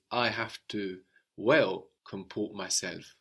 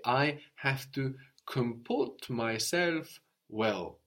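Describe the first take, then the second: First: Well comport, with well pushed forward and leaned on; stress on well. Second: I have to comport myself well said slowly and evenly; slow model sentence. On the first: Teacher showing the new word order. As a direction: lean on well to show where it goes. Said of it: "what we will say in French is". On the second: Teacher modelling a sentence slowly for the student. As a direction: spell it out slowly for the learner. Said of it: "you will say". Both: Shown as a demonstration.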